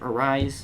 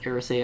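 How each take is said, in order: First: The name ends like the word 'rise'. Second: The name ends with an extra 'ay' sound. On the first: The speaker calls it wrong. "I used to pronounce it Arise" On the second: The speaker calls it right. "It's Arisay, I believe"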